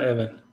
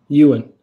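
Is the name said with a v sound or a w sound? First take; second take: v sound; w sound. First: The name is said with a v sound. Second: The name is said with a w sound. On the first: The speaker calls it wrong. "It's not Evan" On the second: The speaker calls it right. "What is it? Ewan"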